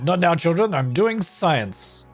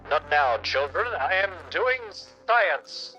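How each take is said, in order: First: It is said in a normal voice. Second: It is said in a megaphone voice.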